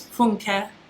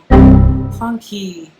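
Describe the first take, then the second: First: The name is not said like English 'funky'. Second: The name is said like English 'funky'. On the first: The speaker calls it right. "Your name is Funke" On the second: The speaker calls it wrong. "you're allowing people to call you Funky"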